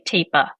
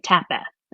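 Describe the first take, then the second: First: The first vowel is a long a sound. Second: The first vowel is a short a sound. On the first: "we'll try that as a long A" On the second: "eh is probably what they're going to say"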